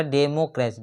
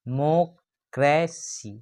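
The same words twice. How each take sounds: First: Said in the usual way. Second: democracy slowly, डे - मो - क्रे - सी with gaps; four separate beats on democracy; split into syllables. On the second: Shown as a demonstration. Teacher counting syllables for students, democracy split into four. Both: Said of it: "democracy में four syllable है".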